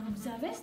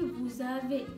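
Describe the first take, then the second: First: The final z sound is pronounced. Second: The final z sound is silent. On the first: The speaker calls it wrong. "Huruf Z-nya di sini nggak dibaca ... bukan vous avez" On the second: The speaker calls it right. "tapi vous avez"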